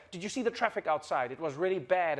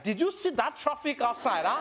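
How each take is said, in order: First: Said in the usual way. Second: High, animated Nigerian accent; big, pitched-up Nigerian accent. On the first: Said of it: "if in English, you're just like". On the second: Shown as a demonstration. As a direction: exclaim it with a lively Nigerian accent. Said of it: "when Nigerians come inside".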